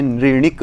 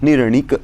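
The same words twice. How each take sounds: First: निर्णिक said as नृणिक, nri-nik, r and i swallowed; wrong pronunciation. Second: निर्णिक said fully as nir-nik with clear r; correct pronunciation. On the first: Teacher showing students the faulty नृणिक. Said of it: "ऐसे कई लोग पाठ करते हैं". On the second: Teacher modelling the right निर्णिक for students. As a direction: pronounce निर्णिक with every sound intact. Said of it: "निर्णिक इस तरह से प्रयोग होगा". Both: Shown as a demonstration.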